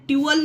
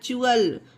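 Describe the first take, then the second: First: The syllable begins with a plain t sound. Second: The syllable begins with a ch sound. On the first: The speaker calls it wrong. "इसे ट्यूअल नहीं पढ़ा गया है" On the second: The speaker calls it right. "टी को चा पढ़ा गया है"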